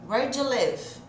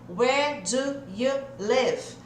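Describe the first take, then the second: First: 'Do you' blends into a single 'j' sound. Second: Each word is said separately, without blending. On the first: "esse do com you não vai ficar do you live, e sim j" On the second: "Eu falei separadinho aqui de propósito"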